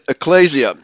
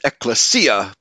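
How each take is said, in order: First: The stress is not on the third syllable. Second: The stress is on the third syllable. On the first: "I have been going throughout my life pronouncing it ecclesia" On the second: "putting the accent on the third syllable"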